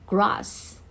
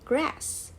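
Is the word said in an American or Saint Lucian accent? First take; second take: Saint Lucian; American. First: It is spoken with a Saint Lucian accent. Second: It is spoken with an American accent. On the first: "in Saint Lucia, we say grass" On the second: "we don't say grass"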